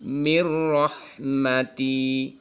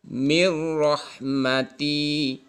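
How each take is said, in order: The two takes are said the same way.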